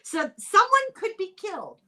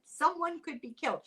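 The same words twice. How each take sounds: First: High, loud alarmed announcement of danger; dramatic alarm. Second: Said in the usual way. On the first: Retold or imitated. Host quoting Scottish Parliament about seagulls, hammed-up alarm. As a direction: read the warning like a panicked official. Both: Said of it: "That's a quote from Parliament".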